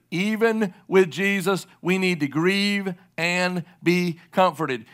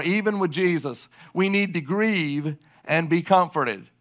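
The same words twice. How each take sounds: First: Each word laid down slowly, with weight; preacher stressing the point slowly to grieving listeners; slow, emphatic repeat. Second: Said in the usual way. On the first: Shown as a demonstration. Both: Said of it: "I want you to hear me clearly".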